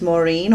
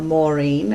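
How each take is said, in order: First: It is said with an American accent. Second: It is said with an English accent.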